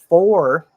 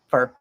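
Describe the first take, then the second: First: The vowel is a full or sound. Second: The vowel is reduced to a schwa.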